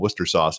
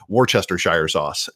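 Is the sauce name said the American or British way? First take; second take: British; American. First: The name is said in a shortened British way. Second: The name is said with every written syllable. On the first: "what they would call Worcester sauce" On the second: "that's how an American would say it"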